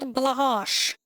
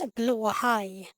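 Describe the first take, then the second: First: The name is read out like English spelling. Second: The name is said with Swedish sounds. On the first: The speaker calls it wrong. "It's not Blahash" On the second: The speaker calls it right. "it's Blåhaj"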